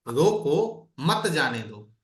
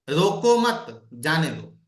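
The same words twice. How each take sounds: First: The pause comes right after 'roko'. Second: The pause comes right after 'mat'.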